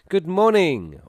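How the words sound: It sounds positive and lively.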